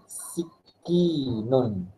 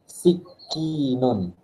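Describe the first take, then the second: The two takes are said the same way.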